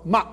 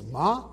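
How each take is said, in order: First: Ma cut off abruptly in the throat; short ma ending in a glottal stop. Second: Said in the usual way. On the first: Shown as a demonstration. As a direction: shut the throat right after the vowel of ma. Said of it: "In the other ones, it does". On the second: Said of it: "it doesn't have a glottal stop".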